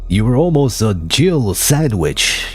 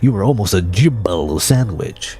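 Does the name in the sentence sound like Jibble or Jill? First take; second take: Jill; Jibble. First: The name is said clearly as Jill. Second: The name is slurred so it sounds like Jibble. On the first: "the line is supposed to be like" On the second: "He's saying like"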